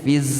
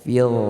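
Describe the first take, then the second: First: The final consonant is a hissing z sound. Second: The final consonant is soft with no hiss. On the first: The speaker calls it wrong. "Kalau fiz berarti huruf ra bertitik, huruf zai yang kita baca" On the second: The speaker calls it right. "fil, tidak berdesis"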